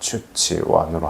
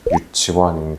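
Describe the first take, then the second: First: The word begins with a ch sound. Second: The word begins with a y sound.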